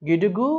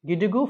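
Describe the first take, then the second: The two takes are said the same way.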